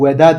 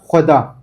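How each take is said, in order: First: It starts with a plain v sound only. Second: It starts with h and v blended together. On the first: The speaker calls it wrong. "veda değil" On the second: The speaker calls it right. "H ve V'nin birleşimiyle o ses çıkıyor"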